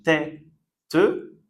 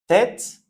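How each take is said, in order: First: TÊTE taken apart as "tè... te"; split into syllables. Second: Said in the usual way. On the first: Shown as a demonstration. Teacher contrasting the two Es, "tête" in two parts. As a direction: sound out "tête" with open "è", then a separate "te". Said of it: "Deux E qui se prononcent différemment". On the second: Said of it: "on prononce est".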